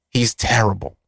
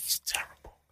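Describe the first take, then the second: First: Said in the usual way. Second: Whispered under the breath; muttered whispered verdict. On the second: Real, not acted. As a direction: hiss it low, just air. Repeating complaint about [name].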